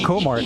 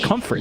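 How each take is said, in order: First: The name is said without an f sound. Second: The name is said with an f sound. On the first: The speaker calls it wrong. "It's not Comart" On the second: The speaker calls it right. "it's Comfort. You see the four?"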